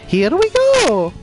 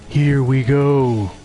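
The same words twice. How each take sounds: First: It is said in an imitation of Mario. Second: It is said in an imitation of Duke Nukem.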